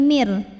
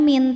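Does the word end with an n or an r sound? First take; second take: r; n. First: The word ends with an r sound. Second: The word ends with an n sound. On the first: The speaker calls it right. "tapi mir" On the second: The speaker calls it wrong. "Jadi bukan min"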